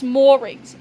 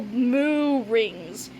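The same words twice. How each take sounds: First: "moorings" as one word starting with moor; correct pronunciation. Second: "moo rings" split as two drawn-out words; mispronounced moorings. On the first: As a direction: say "moorings" with an r in the first syllable. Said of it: "It's pronounced moorings". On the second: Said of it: "not moo like a cow". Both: Acted.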